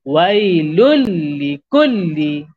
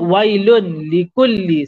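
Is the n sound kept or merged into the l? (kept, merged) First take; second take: merged; kept. First: The n sound merges fully into the l. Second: The n sound is kept before the l. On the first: The speaker calls it right. "Bacaan yang betul. Masuk tanpa dengung" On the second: The speaker calls it wrong. "kita tak baca wailun likulli. Salah"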